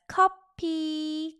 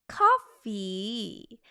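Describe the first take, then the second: First: The word is said with a p sound. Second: The word is said with an f sound.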